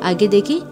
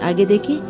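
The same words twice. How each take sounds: Both takes have the same delivery.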